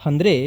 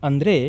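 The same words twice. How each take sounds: The two takes are said the same way.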